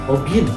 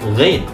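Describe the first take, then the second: First: The word starts with a plain o vowel. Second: The word starts with a throaty gh sound. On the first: The speaker calls it wrong. "ada yang sering bilangnya ogin" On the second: The speaker calls it right. "ini dibacanya adalah ghain"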